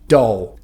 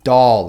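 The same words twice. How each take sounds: First: The word ends with an ow sound. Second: The word ends with an L sound.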